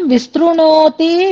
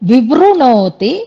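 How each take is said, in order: First: The second syllable has an st sound. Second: The second syllable has a v sound. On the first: The speaker calls it wrong. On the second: The speaker calls it right.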